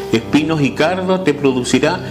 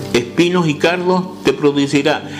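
The two takes are said the same way.

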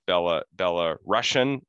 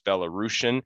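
First: The middle sounds like the word 'Russian'. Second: The middle sounds like 'roos', not 'Russian'. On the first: The speaker calls it wrong. "some people mispronounce it as" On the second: The speaker calls it right. "I was told no, it's"

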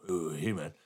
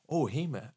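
First: The greeting sounds cold and dismissive. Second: The greeting sounds fairly neutral.

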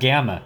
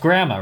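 First: It is said without an r after the g. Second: It is said with an r after the g. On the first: The speaker calls it wrong. "or is it gamma?" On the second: The speaker calls it right. "It's gramma, right?"

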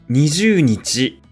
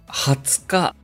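First: The day is read as number plus nichi. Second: The day is read with one special word. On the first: The speaker calls it wrong. "20 日ではありません。" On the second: The speaker calls it right. "20 日です。"

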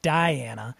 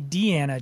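First: The name begins with a 'die' sound. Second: The name begins with a 'dee' sound. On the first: The speaker calls it wrong. "I know some people have said Diana" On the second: The speaker calls it right. "So I say Deanna Jones"

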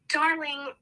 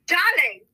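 First: It is said in her normal accent. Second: It is said in a put-on British accent.

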